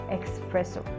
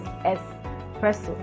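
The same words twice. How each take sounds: First: It begins with a 'ks' sound. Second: It begins with a plain 's' sound. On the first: The speaker calls it wrong. "not espresso" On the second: The speaker calls it right. "it is espresso"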